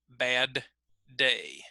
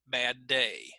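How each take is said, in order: First: The D is fully released before the second word. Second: The D is held and joined into the second word. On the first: "if I separated them" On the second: "most North American English speakers will connect those two sounds"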